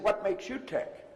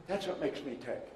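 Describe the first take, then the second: First: YOU picked out in a slow question; stress on YOU. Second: ME picked out in a settled statement; stress on ME. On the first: Retold or imitated. Mentor asked about his drive turns it back, stress on YOU. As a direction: turn the question round by leaning on "you". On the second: Real, not acted. Coach tells audience his own drive, stress on ME. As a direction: answer by leaning on "me". Answer contrasts me with you.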